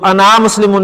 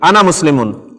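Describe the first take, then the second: First: The final vowel of ana is drawn out long. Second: The final vowel of ana is short. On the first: The speaker calls it wrong. "नहीं कहेंगे" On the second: The speaker calls it right. "अलिफ नहीं पढ़ा जाता"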